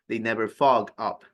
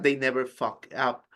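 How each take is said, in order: First: The word ends in a soft g sound. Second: The word ends in a hard k sound. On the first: The speaker calls it right. "It's fog" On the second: The speaker calls it wrong. "you said they never K. uh, I mean, with a stronger sound"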